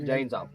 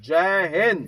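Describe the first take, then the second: First: Said in the usual way. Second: "जय Hind" shouted out loud, with the stress on "Hind"; shouted salute call. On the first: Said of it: "अपन जय हिंद साहब नहीं करेंगे". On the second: Shown as a demonstration. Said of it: "तीन बार बोलेंगे".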